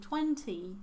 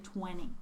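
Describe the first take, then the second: First: The T after the N is clearly pronounced. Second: The T after the N is dropped. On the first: This is how British speakers say it. "British people would say twenty dollars" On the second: This is how Canadian speakers say it. "Canadians say twenty. So they omit the sound T"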